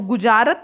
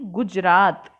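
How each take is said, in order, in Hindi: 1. लंबा स्वर दूसरे अक्षर में आता है। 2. लंबा स्वर तीसरे अक्षर में आता है। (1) "गुजारत नहीं"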